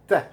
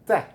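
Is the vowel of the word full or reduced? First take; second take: reduced; reduced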